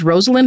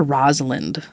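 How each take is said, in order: First: "Rosalind" with a long O; alternative pronunciation. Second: "Rosalind" with a short O; alternative pronunciation. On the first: Host unsure of the scientist's name, "Rosalind" with long O. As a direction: say "Rosalind" starting like the word rose. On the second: Host offering the other option, "Rosalind" with short O. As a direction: say "Rosalind" starting with "rahz". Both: Shown as a demonstration. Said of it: "see what the vowel accent was".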